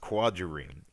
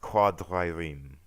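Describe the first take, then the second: First: The r sounds are plain English r sounds. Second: The r sounds are rolled in a French style. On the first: "this was brought up as quadrireme" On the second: "traditionally you'd pronounce it with the attenuated French dr rolled um, sound"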